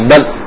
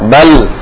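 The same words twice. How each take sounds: First: The final l cuts off abruptly. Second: The final l rings on briefly. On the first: The speaker calls it wrong. "Kalau langsung mati" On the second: The speaker calls it right. "Suara enggak langsung mati tapi mengalir sedikit"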